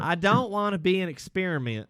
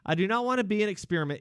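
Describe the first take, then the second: First: It is said in a put-on Southern accent. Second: It is said in a plain, ordinary accent.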